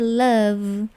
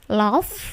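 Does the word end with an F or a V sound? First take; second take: V; F. First: The word ends with a V sound. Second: The word ends with an F sound. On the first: The speaker calls it right. "Jadi V-nya itu ya" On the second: The speaker calls it wrong. "bukan F tetapi V ya"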